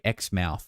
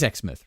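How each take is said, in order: First: The word is said carefully, over-pronounced. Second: The word is said in a relaxed way. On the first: The speaker calls it wrong. "I feel like I'm over-pronouncing it" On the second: The speaker calls it right. "That's what I thought it was"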